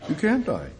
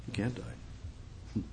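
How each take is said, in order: First: Said in the usual way. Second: Slow whisper. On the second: Shown as a demonstration. Preacher hushing the congregation, slow whisper. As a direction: whisper it slowly, almost no voice.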